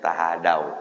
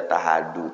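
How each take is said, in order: First: The word ends with an 'ow' sound. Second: The word ends with an 'oo' sound. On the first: The speaker calls it right. "bacanya tahadau" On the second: The speaker calls it wrong. "jangan dibaca tahadu"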